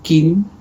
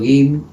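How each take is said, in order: First: The word begins with a k sound. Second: The word begins with a g sound. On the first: This is how the other variety says woman. "ellos dirían Kin" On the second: This is the speaker's own variety's word for woman. "que para mí es mujer"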